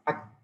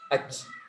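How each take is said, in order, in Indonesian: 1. Bunyi k terakhir ditahan dulu sebelum dilepas dengan lemah. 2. Bunyi k terakhir dilepas dengan hembusan napas yang kuat. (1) "Jadi ditahan dulu" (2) "banyak hamsnya ... sering dengar seperti itu"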